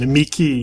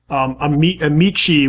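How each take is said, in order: First: The c is pronounced as a hard k. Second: The c is pronounced as a soft sound. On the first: This is the classical Latin pronunciation. "Amici is classical" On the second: This is the church Latin pronunciation. "Amici would be the church pronunciation"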